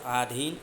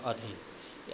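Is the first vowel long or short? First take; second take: long; short. First: The first vowel is long. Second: The first vowel is short. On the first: The speaker calls it wrong. "आधीन क्या है, अशुद्ध है। यहाँ पे आ हमने यूज कर दिया ना" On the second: The speaker calls it right. "अधीन क्या है, शुद्ध है।"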